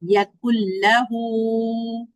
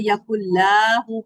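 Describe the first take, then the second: First: The vowel after the L is kept short. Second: The vowel after the L is drawn out. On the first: The speaker calls it right. "Direct काफ को लाम के साथ मिला देंगे" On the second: The speaker calls it wrong. "लाम को लंबा नहीं करना है ... वो गलत है"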